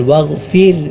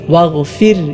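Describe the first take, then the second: Both takes have the same delivery.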